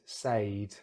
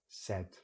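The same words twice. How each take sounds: First: The vowel glides like the vowel in paid. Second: The vowel is short and does not glide. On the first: The speaker calls it wrong. "this is incorrect" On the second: The speaker calls it right. "Just a, a regular short vowel"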